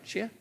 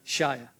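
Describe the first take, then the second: First: "Shia" said as SHEE-uh; "Shia" as SHEE-uh, checking the name; mispronounced name. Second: "Shia" said as SHY-uh; "Shia" as SHY-uh, lower and falling; corrected name pronunciation. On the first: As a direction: say "Shia" with an ee in the first syllable, questioningly. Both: Real, not acted. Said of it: "I'm gonna get it".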